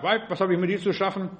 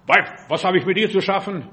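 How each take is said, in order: First: Said in the usual way. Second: Mildly gruff retort, punched first word; Jesus, brusque. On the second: Acted. Jesus rebuffing Mary at the wedding in Cana, brusquely. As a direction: hit "Weib" hard, as a curt rebuff. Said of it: "sagt Jesus noch so schroff".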